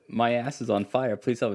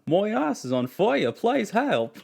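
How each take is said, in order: First: It is said in the speaker's ordinary accent. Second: It is said in an Australian accent. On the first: "So I said" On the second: "the best Australian accent I've ever heard"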